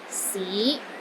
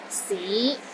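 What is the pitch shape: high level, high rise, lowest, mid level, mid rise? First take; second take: mid rise; mid rise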